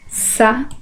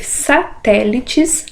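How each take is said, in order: First: "Satélites" in isolated syllables with long pauses. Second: Said in the usual way. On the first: Shown as a demonstration. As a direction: count out "Satélites" one syllable at a time. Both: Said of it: "Separação de sílabas".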